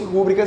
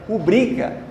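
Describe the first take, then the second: First: The stress is on the first syllable. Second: The stress is on the second syllable. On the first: The speaker calls it wrong. "se fosse rúbrica seria uma proparoxítona" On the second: The speaker calls it right. "Mas é rubrica"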